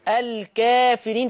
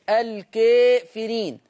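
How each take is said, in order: First: The long a is said fully open. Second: The long a leans slightly toward ee. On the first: "فتحة كاملة" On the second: "في التقليل ... بميل شوية"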